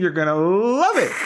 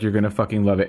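First: It is said in an upbeat video announcer voice. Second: It is said in her natural speaking voice.

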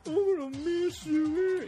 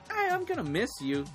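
First: It is said tearfully, with heavy sentiment. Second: It is said casually, without sentiment.

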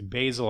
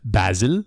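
First: It is said in an American accent. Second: It is said in an English accent.

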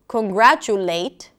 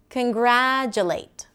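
First: Every vowel is full, with even weight. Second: Unstressed vowels are reduced, giving uneven rhythm. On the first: "Instead of congratulate" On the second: "short, long, short, medium"

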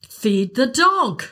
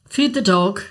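First: It sounds exasperated and impatient. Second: It sounds like a casual reminder.

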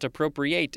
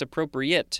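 First: The last syllable is a full 'ate' sound. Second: The last syllable is a weak 'it' sound. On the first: It is the verb meaning to take possession. The speaker calls it wrong. "It's not appropriate" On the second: It is the adjective meaning suitable. The speaker calls it right. "it's appropriate"

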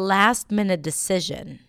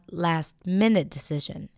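First: The stress falls on the word 'last'. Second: The stress falls on the word 'minute'. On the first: The speaker calls it right. "I would put the stress on last" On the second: The speaker calls it wrong. "not last-minute decision"

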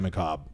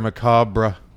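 First: The final 're' is not pronounced as a syllable. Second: The final 're' is pronounced as a full syllable. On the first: It is the way most people say it. "most people say macabre" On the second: It copies the way a family member said it. "Why did he pronounce the R-E?"

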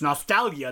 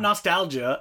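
First: The middle g is hard, like in go. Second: The middle g is soft, like a j. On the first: The speaker calls it right. "It's Nostalgia, Nostalgia. There's a GH in there" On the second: The speaker calls it wrong. "not Nostalgia, as our friend Marco keeps telling us"

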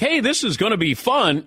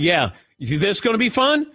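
First: It is said in a friendly, cheerful way. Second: It is said in a taunting, challenging way.

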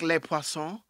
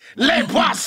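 First: The words are said softly and smoothly. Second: The words are said hard and forcefully. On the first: This is how regular French speakers say it. "Instead of being like" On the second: This is how the other French speakers say it. "You just say that shit real hard"

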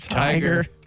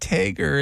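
First: The first vowel sounds like 'eye'. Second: The first vowel sounds like 'ay'. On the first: This is the usual way to say it. "instead of tiger" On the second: This is how the speaker's father says it. "My dad says tager"

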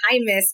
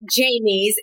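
First: The name begins with an H sound. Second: The name begins with a J sound. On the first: The speaker calls it right. "it's Jaimes" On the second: The speaker calls it wrong. "it's not Jaimes"

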